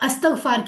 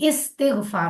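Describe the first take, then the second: First: The word begins with an 'a' vowel. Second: The word begins with an 'i' vowel. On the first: The speaker calls it wrong. "अस्तगफार लफ्ज गलत है" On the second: The speaker calls it right. "इस्तिगफार होता है जेर के साथ"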